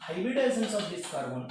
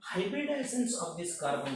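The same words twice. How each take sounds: First: Hybridizations of this carbon drawn out slowly, stress on Hybridizations; slow, weighty repeat of the question; slow emphatic repeat. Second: Said in the usual way. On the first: Shown as a demonstration. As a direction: lean on Hybridizations, slow every word.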